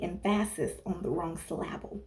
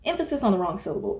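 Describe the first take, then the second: First: "emphasis" and "syllable" both stressed on the middle syllable; misplaced syllable stress. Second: Said in the usual way. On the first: Shown as a demonstration. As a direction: say "emphasis" as em-FASS-is and "syllable" as sih-LAB-ul. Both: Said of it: "putting emphasis on the wrong syllable".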